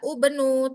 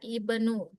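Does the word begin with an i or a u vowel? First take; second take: u; i. First: The word begins with a u vowel. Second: The word begins with an i vowel. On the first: The speaker calls it wrong. "bukan dibaca ubenu" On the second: The speaker calls it right. "tapi tetap dia ibnu"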